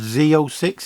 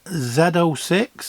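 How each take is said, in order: First: It is said the American way. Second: It is said the British way.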